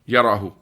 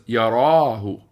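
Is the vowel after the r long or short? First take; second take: short; long. First: The vowel after the r is short. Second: The vowel after the r is long. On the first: "Here it's" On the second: "Originally it was"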